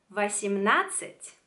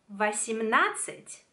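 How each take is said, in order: No difference in how they are said.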